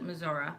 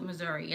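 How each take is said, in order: First: "Missouri" ending in "-uh"; Aunt Sue's pronunciation. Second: "Missouri" ending in "-ee"; Mom's pronunciation. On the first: Showing how the aunt says it, "Missouri" ending in "-uh". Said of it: "Aunt Sue calls it Missouri". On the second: Showing how mom says it, "Missouri" ending in "-ee". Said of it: "Mom calls it Missouri". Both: Shown as a demonstration.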